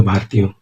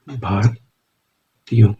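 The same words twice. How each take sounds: First: Said in the usual way. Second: Very slow, stretched word, softer; drawn out while writing. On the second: Shown as a demonstration. Teacher drawing the shorthand for students, slow and drawn out. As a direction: stretch the word out as you write it. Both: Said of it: "ये हो गया भारतीयों".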